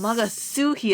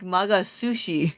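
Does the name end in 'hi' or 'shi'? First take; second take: hi; shi. First: The name ends with a 'hi' sound. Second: The name ends with a 'shi' sound. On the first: "that's how you pronounce it" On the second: "I was pronouncing it like Magasushi"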